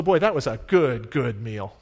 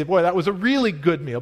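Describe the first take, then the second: First: "good, good" repeated for emphasis, dropping on "meal"; stress by repetition. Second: "really" lifted for emphasis before "good meal"; "really" carries the emphasis, "good meal" falls after; stress on REALLY. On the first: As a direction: lean on both words of "good, good". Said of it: "techniques that we use is to repeat the word". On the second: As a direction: punch the word "really". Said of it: "that's a way that we say". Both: Shown as a demonstration.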